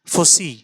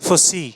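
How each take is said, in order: No difference in how they are said.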